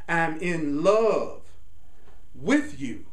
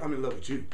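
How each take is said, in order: First: The stress falls on the word in. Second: The stress falls on the word you. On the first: Both people share the state of being in love. The speaker calls it right. "I'm in love, in love with you. We're both in love" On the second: Love is something directed at the other person. The speaker calls it wrong. "Instead of"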